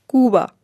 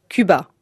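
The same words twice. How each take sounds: First: The first vowel is an ou sound. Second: The first vowel is a French u sound. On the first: This is the Spanish way of saying it. "En espagnol, on dit" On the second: This is the French way of saying it. "Un français dira"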